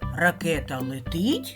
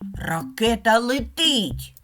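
First: It is said with a rising question tune. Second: It is said with a lively exclaiming tune. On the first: Asks whether the rocket is flying. "А як це речення буде звучати зі знаком питання?" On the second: Expresses excitement that the rocket is flying. "А зараз стоїть знак оклику"

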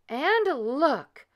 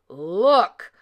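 First: It is cried in a medium voice. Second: It is growled in a deep voice.

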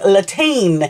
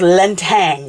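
First: The name ends with a 'teen' sound. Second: The name ends with a 'tang' sound. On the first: The speaker calls it wrong. "I've been saying Latine, so I've been missing out that Lan, and I've been saying the last bit wrong" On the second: The speaker calls it right. "so it's Lintang"

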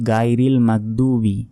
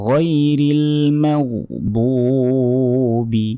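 First: The first sound is a hard g. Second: The first sound is a throaty gh. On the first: The speaker calls it wrong. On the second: The speaker calls it right.

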